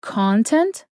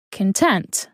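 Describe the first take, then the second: First: "Content" said CON-tent, stress first, rising; noun stress. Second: "content" said con-TENT, stress last; adjective stress. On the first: Teacher repeating the noun for learners, "Content" as CON-tent. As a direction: lean on the first syllable of "Content". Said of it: "If the asterisk is on the first syllable". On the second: Teacher repeating the adjective for learners, "content" as con-TENT. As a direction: weaken the first syllable of "content", stress TENT. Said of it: "which is an adjective". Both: Shown as a demonstration.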